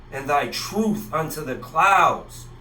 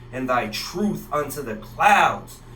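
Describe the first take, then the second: No difference in how they are said.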